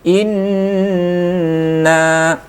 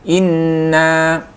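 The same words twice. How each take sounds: First: The nasal n sound is held for a moment. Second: The nasal n sound is cut short. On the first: The speaker calls it right. "Jadi tahan sejenak ya" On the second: The speaker calls it wrong. "itu kurang dengung. Kurang"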